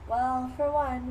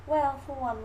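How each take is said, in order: First: Put-on slow, higher dreamy girl voice; dotty sister. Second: Lightly voiced belle, higher and falling; Southern belle mother. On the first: Sister comparing herself to Laura, slow and dreamy. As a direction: draw it out like a mock spacey girl. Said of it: "Now my sister to talk about". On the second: Mother comparing herself to Amanda, lightly put-on genteel. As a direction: begin primly as the mock-genteel mother. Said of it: "Here's my mother to talk about".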